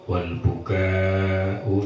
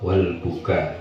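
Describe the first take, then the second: First: The final vowel is long. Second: The final vowel is short. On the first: Raising the voice, wailing. "Kalau dibaca panjang" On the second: Tears flowing from the eyes. "dengan dibaca pendek ya"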